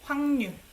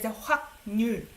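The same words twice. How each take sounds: First: The sounds blend together in natural speech. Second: Each written sound is said carefully and separately. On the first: The speaker calls it right. "Korean people will say 확률" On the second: The speaker calls it wrong. "I don't pronounce it as 확률"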